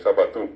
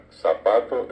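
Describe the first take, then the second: First: "zapatú" stressed on the final Ú; stress on last syllable of ZAPATÚ. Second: "zapato" stressed on PA; stress on middle syllable of ZAPATO. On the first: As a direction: say "zapatú" the Guaraní way, TÚ strong. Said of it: "el guaraní estira al final". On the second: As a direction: say "zapato" with Castilian penultimate stress. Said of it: "acento llano". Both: Shown as a demonstration.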